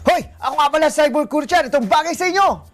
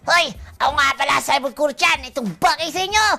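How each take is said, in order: First: It is said in a plain natural voice. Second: It is said in an animated cartoon voice.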